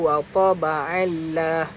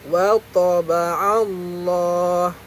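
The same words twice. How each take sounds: First: The l in Allah is light and thin. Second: The l in Allah is heavy and full. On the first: The speaker calls it wrong. "Kenapa tak baca wa taba'allah?" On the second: The speaker calls it right. "kerana sebelum Allah ada baris atas"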